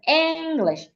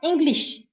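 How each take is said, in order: First: The first syllable is louder, longer and clearer. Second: Both syllables are said evenly, with no stress. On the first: The speaker calls it right. "The first part has to be said louder, longer, and clearer" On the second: The speaker calls it wrong. "English is flat"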